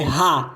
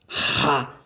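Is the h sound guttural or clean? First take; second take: clean; guttural. First: The h is a clean, light breath. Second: The h is made rough in the throat. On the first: The speaker calls it right. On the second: The speaker calls it wrong. "Não pronuncie o H gutural"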